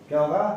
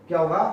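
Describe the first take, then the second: No difference in how they are said.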